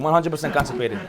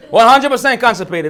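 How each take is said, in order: First: Said in the usual way. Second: Laughing. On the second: Real, not acted.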